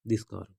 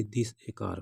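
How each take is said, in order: First: Said in the usual way. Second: Wrong version with a; wrong form. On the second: Shown as a demonstration. Teacher showing the wrong phrase to students. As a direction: say this a car as the wrong example. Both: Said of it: "ऐसा नहीं बोलेंगे".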